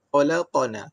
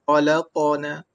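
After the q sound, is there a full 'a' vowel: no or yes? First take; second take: yes; yes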